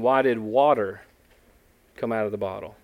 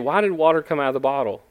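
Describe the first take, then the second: First: The question puts extra stress on 'water'. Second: The question has ordinary intonation, 'water' unstressed. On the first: It asks why it was water that came out. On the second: It asks what caused the water to come out.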